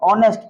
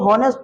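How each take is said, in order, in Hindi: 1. शब्द स्वर से शुरू होता है, इसमें h नहीं है। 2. शब्द की शुरुआत में h की साफ़ आवाज़ है। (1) "ऑनेस्ट में एच साइलेंट होता है" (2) "उसको हॉनेस्ट पढ़ोगे तो ... वही तुमको बुड़बक कर देगा"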